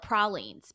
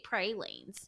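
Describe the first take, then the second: First: The word is said the Louisiana way. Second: The word is said the Texas way. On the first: This is how people in Louisiana say it. "It's a Louisiana, it's a Cajun thing" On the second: This is how people in Texas say it. "you come to Texas and they say pralines"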